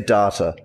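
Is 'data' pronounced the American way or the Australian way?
Australian. The word is said with an Australian pronunciation. "That's the Australian way of doing it"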